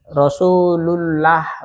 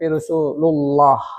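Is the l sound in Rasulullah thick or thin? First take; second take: thin; thick. First: The l sound is thin and light. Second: The l sound is thick and heavy. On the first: The speaker calls it wrong. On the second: The speaker calls it right. "Lo jadinya tebal ya"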